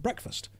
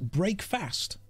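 First: It is said as one blended word, breakfast. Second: It is said as two separate words, break and fast. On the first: "as in breakfast" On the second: "if you were to break down the syllables of that word, that's how you would pronounce it"

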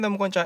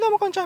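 First: It is spoken in a normal chest voice. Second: It is spoken in a high falsetto voice. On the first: The speaker calls it wrong. "今回似てないのは分かっております。" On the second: The speaker calls it right. "みたいな感じで裏声使って話すんです"

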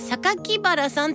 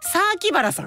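First: Each syllable is articulated separately and clearly. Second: The opening syllables are blurred with a long vowel. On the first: "榊原さんって言わなくて大丈夫" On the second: "榊は刻まなくていいです"

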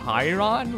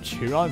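First: The first syllable sounds like 'kai'. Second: The first syllable does not sound like 'kai'. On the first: The speaker calls it right. "apparently pronounced Chain of Chiron, which how is C-H-I pronounced Kai?" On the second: The speaker calls it wrong. "is what I pronounce"

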